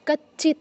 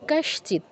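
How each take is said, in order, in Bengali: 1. মাঝের যুক্তব্যঞ্জনটি দ্বিত্ব ch-এর মতো শোনায়। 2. মাঝের যুক্তব্যঞ্জনে ch-এর আগে একটি sh আছে। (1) "কচ্চিৎ নয়" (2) "তালব্যস্বর জায়গায় আরেকটা চ নিয়ে আসে, এটা করা যাবে না"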